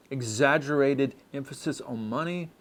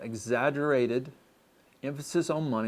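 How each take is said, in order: First: Said in the usual way. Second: Exaggerated drawn out slowly; slow, deliberate repeat. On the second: Shown as a demonstration. Pastor repeating point ten to the church, slowly. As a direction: lay each word down slowly for emphasis. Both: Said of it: "Again, number ten".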